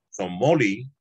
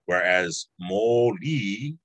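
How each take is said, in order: First: "moli" said flat, no stress on either syllable; unstressed moli meaning orange; level moli; no emphasis moli. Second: Slow "moli" with stress on o and i, rising; emphasis on moli. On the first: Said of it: "with no emphasis would be orange". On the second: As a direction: stretch and stress moli meaning light. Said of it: "would be light". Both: Shown as a demonstration.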